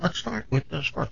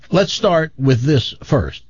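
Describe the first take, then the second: First: Very soft, hushed echo of oneself; echo on the line. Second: Said in the usual way. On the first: Retold or imitated. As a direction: repeat it faintly, like a phone echo. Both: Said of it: "an echo saying".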